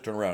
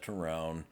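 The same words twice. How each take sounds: First: It is said firmly and confidently. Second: It is said hesitantly and unsurely. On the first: There is no room for argument. The speaker calls it right. "That tone of voice says we're not arguing about it" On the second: The officer seems unsure and invites resistance. The speaker calls it wrong. "If you're like, well, sir, yeah"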